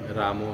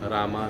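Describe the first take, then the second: First: The word ends with an added 'o' vowel. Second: The word ends with an added 'a' vowel. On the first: "रामो नहीं" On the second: "रामा नहीं"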